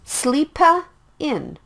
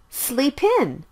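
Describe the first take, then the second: First: An extra 'uh' vowel is added after the p before 'in'. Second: The p links straight into 'in' with no extra vowel. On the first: The speaker calls it wrong. "Don't say it like sleepa in" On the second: The speaker calls it right. "Sleep in is the natural sound"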